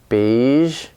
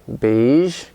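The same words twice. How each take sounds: No difference in how they are said.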